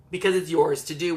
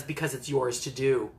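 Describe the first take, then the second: First: Said in the usual way. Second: A touch lower, calm wizard reply; lightly voiced old wizard, settling it; wise Gandalf. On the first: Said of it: "which to me". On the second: Gandalf answering Frodo, lightly lower and calm. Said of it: "And Gandalf says".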